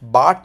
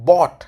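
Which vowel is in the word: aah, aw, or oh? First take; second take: aah; aw. First: The vowel sounds like 'aah' in father. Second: The vowel sounds like 'aw' in law. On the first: The speaker calls it wrong. "बाट नहीं है" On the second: The speaker calls it right. "बॉट है"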